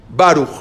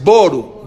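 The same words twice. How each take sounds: First: Baruch with open "ah" in Ba; loud Baruch, first vowel a clear "ah". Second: Boru with "oh" in the first syllable; rounded first vowel in Boru; closed kamatz. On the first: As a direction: say Baruch as "BAH-rukh". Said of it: "se dice A". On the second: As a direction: say Boru slowly as "BOH-ru". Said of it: "la kamaz es Boru". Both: Shown as a demonstration.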